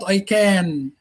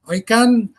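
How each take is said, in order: First: The vowel in 'can' is long. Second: The vowel in 'can' is short. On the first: The speaker calls it wrong. "it's not I can" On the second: The speaker calls it right. "It's not long vowel"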